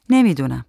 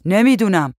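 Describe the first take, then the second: First: Said in the usual way. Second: Raised, slightly higher calling voice; shouted reply. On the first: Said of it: "زن شانه بالا انداخت". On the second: A narrator's reading. Man answers wife about bug spray, mild shout. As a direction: call it back across the rooms. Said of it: "مرد داد زد".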